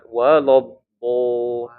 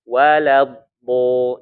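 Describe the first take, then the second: First: The l is thick and heavy, darkening the vowel. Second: The l is thin and light, vowel stays bright. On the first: The speaker calls it wrong. "jangan walob bo" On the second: The speaker calls it right. "la-nya tipis di situ ya"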